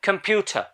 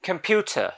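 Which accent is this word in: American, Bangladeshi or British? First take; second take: British; British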